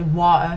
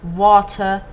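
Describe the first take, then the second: First: The word is pronounced casually. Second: The word is pronounced carefully.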